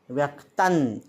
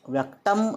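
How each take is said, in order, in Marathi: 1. शब्द अर्धा 'n' ध्वनीने संपतो. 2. शब्द पूर्ण 'm' ध्वनीने संपतो. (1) "नचा अर्धा उच्चार करायचा आहे" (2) "व्यक्तम असं न म्हणता"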